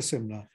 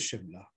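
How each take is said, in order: First: The word begins with an 's' sound. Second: The word begins with a 'sh' sound. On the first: The speaker calls it wrong. "It was never Shimla" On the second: The speaker calls it right. "it was always Shimla"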